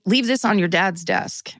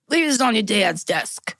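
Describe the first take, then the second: First: It is read in a plain, ordinary voice. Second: It is said in a put-on Boston accent.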